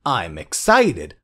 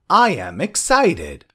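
First: "I'm" run together as one syllable; slow model sentence, "I'm" contracted. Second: "I am" said as two separate words; slow model sentence, "I am" in full; full form "I am". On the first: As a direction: say "I'm excited" with the short form "I'm". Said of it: "I'm भनेको I am को छोटो फर्म". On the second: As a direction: say "I am excited" with "I am" uncontracted. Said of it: "I am को छोटो फर्म". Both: Shown as a demonstration.

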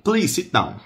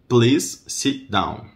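First: Quick, high "please sit down"; linked-up, high-pitched request; natural speed. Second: Very slow, word-by-word request; drawn-out "Please sit down"; slow model. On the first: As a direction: say it briskly in one go. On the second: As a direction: separate each word for learners. Teacher slows the same phrase. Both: Shown as a demonstration.

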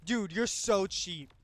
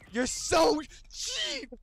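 First: Said in the usual way. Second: "cheap" drawn out high and whiny; whiny complaint. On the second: Real, not acted. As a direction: whine the word "cheap" slowly. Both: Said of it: "repeated complaint".

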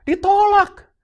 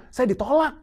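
First: Ditolak cried out high and loud; a loud, high, pained cry of Ditolak; anguished cry. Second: Said in the usual way. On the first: Real, not acted. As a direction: throw out Ditolak as a pained shout. Emphatic repeat of rejection.

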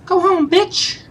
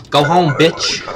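First: A high cartoon jeer; squeaky mock taunt. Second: Louder jeering send-off; a mock snarl; mock taunt. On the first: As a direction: go home, bitch in a much higher, sing-song squeak with a rising end. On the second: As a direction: sneer it at him like a bored guard.

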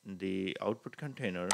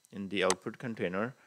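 The two takes are said the same way.

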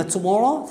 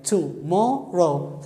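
First: Said in the usual way. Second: "tomorrow" in three slow beats, to, mor, row; syllable by syllable. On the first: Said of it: "أنقر وياها". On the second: Shown as a demonstration. Teacher showing three syllables to students, "tomorrow" slowly broken up. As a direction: draw out "tomorrow", pausing after each syllable. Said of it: "ثلاث مقاطع صوتية".

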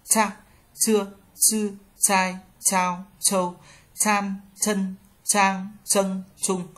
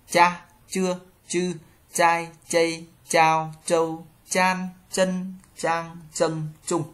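First: "Cha, chưa, chư" as ts with a burst of air; high, even drill, pushing air out on "chai, chao, châu"; aspirated C. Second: "Cha, chưa, chư" with light unaspirated ch, no puff; light Z sound. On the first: Teacher reading the C row, "Cha" with strong aspiration. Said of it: "Chữ C thẳng lưỡi bật hơi". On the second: Teacher reading the syllable chart, "Cha" light and unaspirated. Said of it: "Z đọc giống trở nhẹ". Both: Shown as a demonstration.

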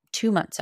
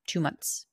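First: "Two" punched higher and louder, falling; "Two months" hit hard; stress on TWO. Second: Said in the usual way. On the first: Real, not acted. Repeating how long the high lasted, stress on "Two".

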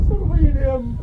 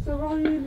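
First: Higher, pleading with a crack; tearful plea. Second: Much softer, the voice dying away; fading plea. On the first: Son at his mother's grave, tearful plea. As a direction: beg her to forgive you. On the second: Son at his mother's grave, fading into a soft plea. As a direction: let the word fade into grief. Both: Acted. Begging dead mother's forgiveness.

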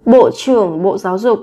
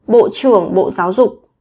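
No difference in how they are said.

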